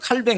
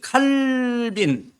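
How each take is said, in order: First: The name ends with a 'baeng' sound. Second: The name ends with a 'bin' sound. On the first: This is the French form of the name. "그 프랑스 말로 칼뱅 그래요" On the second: This is the English form of the name. "원래 영어로 이제 칼빈이라고 하는데"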